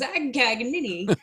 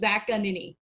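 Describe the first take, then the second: First: A hard G sound is clearly pronounced. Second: No hard G sound is pronounced. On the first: This is how people who don't know the name say it. The speaker calls it wrong. "they either overpronounce the G, like Zagcagnini, like Siri" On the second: This is the usual American way to say the name. The speaker calls it right. "the Americanized at least version is Zaccanini"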